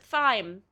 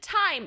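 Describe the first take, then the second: First: The word starts with a TH sound. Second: The word starts with a plain T sound. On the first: "almost all the time when there's a T and an H, you pronounce it thyme" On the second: "I'm just gonna pronounce it time, even though there's an H"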